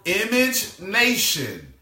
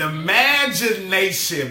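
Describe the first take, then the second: First: It is split into 'image' and 'nation'. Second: It is said smoothly as one word. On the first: The speaker calls it wrong. "I'm saying that wrong" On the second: The speaker calls it right. "An imagination"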